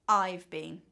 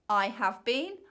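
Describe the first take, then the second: First: Have is reduced to a v sound. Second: Have is said as a full separate word. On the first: "the contracted form" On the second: "the long form"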